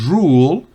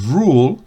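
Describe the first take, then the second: Both takes have the same delivery.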